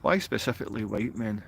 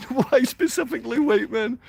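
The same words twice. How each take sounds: First: Said in the usual way. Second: Sneering mimicry; mocking falsetto. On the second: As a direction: parrot it back in a silly high voice. Mocking the chat question.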